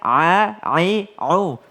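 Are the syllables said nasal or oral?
oral. The syllables are said without nasal sound. The speaker calls it right. "nggak pakai hidung"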